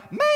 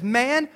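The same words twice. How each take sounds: First: Exaggerated, drawn-out "Man"; mock exasperated reply. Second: Said in the usual way. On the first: Preacher misreading Jesus' reply for laughs, mock exasperated. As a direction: stretch "Man" out as a comic put-down. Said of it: "That's so not probably the way he said it". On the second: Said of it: "It was still honorable".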